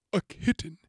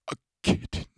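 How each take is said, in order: First: Kitten squeaked much higher; eager kitten. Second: Breathless hushed whisper of kitten. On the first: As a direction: say kitten with giddy, rising hunger. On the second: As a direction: breathe kitten with hungry awe. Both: Retold or imitated. Renfield craving a kitten.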